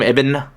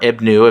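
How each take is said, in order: First: The word ends on the consonant n. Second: The word ends with an added u vowel. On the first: The speaker calls it right. "It's that's pronounced Ibn" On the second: The speaker calls it wrong. "Ibnu, if you want to be wrong"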